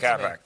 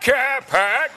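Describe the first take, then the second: First: It is said casually with little energy. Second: It is said loudly with a lot of energy. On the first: The speaker calls it right. "now do it with 20% the energy" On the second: The speaker calls it wrong. "when they do a Boston accent, they're like"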